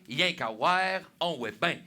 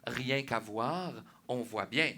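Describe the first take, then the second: First: The words are clipped and run together regionally. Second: Each word is pronounced fully and carefully. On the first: The speaker calls it right. "Non, non, c'est" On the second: The speaker calls it wrong. "C'est pas"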